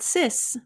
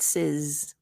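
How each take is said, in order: First: The syllable ends with a hissing S sound. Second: The syllable ends with a buzzing Z sound. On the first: The speaker calls it wrong. "not sis" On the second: The speaker calls it right. "but sizz, like sizzle"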